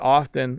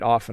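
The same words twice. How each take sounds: First: The T sound in the middle is pronounced. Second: The T sound in the middle is silent. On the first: "quite often I pronounce the T" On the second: "and quite often I don't"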